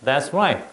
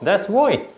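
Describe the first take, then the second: First: It is said in a plain standard accent. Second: It is said in an Australian accent. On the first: "우리는 that's right 이렇게 얘기하잖아요" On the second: "근데 그 친구는 꼭 that's right"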